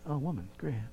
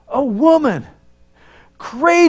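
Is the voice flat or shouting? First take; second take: flat; shouting. First: It is said flatly with little energy. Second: It is shouted loudly with great excitement. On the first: The praise sounds half-hearted. The speaker calls it wrong. "I'm sure he didn't just stand there and just say" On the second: The praise is enthusiastic. The speaker calls it right. "I could just hear him just shouting it out"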